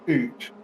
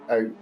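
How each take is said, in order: First: The vowel sounds like 'oo', as in 'boot'. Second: The vowel sounds like 'ow', as in 'cow'. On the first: It mimics a stereotypical Canadian accent. The speaker calls it right. "you're Canadian. Say it properly. It's oot" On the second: It is the ordinary non-Canadian pronunciation. The speaker calls it wrong. "not out"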